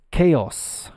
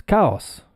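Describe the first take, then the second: First: Chaos as KAY-oss; English pronunciation. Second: Chaos as KAH-oss, rhyming with cows; wrong pronunciation. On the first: Teacher correcting the easy guess, chaos as KAY-oss. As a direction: stress a long ay in chaos. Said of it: "it's pronounced chaos". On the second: Teacher teasing learners with the easy guess, chaos as KAH-oss. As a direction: say chaos with an ah vowel. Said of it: "No, it's not chaos". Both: Shown as a demonstration.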